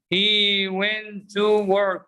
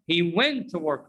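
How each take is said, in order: First: Very slow, "went to" split with a full "too"; over-careful word-by-word "went to"; wrong unreduced example. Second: "went to" blended as "wenta"; weak "tuh" for "to", running into "work"; connected "wenta work"; reduced pronunciation. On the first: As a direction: drag out each word, long "to". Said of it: "it's not correct". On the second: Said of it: "Repeat after me". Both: Shown as a demonstration.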